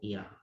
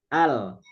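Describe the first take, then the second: First: The syllable begins with an i vowel. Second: The syllable begins with an a vowel. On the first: The speaker calls it wrong. "nggak mungkin ul atau il" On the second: The speaker calls it right. "alifnya dibacanya a"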